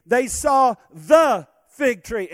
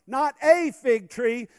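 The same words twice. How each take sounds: First: "the" stretched slow and louder; preacher punching "the" slowly; stress on THE. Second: "a" stretched long in "Not a fig tree"; slow, pointed "a" in "Not a fig tree"; stress on A. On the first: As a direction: hit "the" hard in "they saw the fig tree". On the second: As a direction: hold the "a" as the wrong word. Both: Shown as a demonstration.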